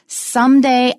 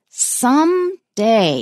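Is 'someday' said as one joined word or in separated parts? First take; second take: joined; separated. First: It is said as one smooth, joined word. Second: It is said as two separate, emphatic parts.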